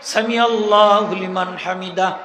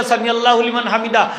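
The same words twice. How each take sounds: First: Slow, stretched Sami আল্লাহু while rising; correct drawn-out recitation. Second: Said in the usual way. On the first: Shown as a demonstration. Preacher shows the imam the correct timing, slow. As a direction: spread it across the whole rise. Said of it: "Hamida হইয়া শেষ". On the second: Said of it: "আপনি যে সুজা হইয়া কইলা".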